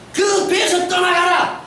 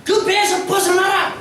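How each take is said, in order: First: "그" stressed, "그 배에서 떠나가라" slow and shouted; "그 배에서 떠나가라" as a rousing, shouted command; shouted proclamation. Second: "그" stressed, "그 배에서 벗어나라" drawn out slowly; "그 배에서 벗어나라" as a slow, solemn command; slow proclamation. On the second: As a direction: lean on "그" and stretch "그 배에서 벗어나라". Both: Shown as a demonstration.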